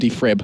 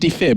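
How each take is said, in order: First: It is said with an r after f. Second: It is said without an r after f. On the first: The speaker calls it wrong. "Definitely not frib" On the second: The speaker calls it right. "Defib. ... definitely defib"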